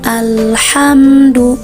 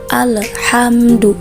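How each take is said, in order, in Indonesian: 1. Bunyi l halus tanpa dipantulkan. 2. Bunyi l dipantulkan dengan gema. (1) "tidak perlu dipantulkan ya. Cara membaca yang benar seperti ini" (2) "membacanya itu dipantulkan seperti ini"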